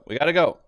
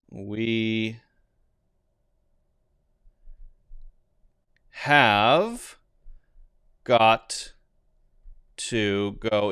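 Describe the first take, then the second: First: Have got to is reduced to gotta. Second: Have got to is said fully, all words clear. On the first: "we could say we gotta go" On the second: "is the long version"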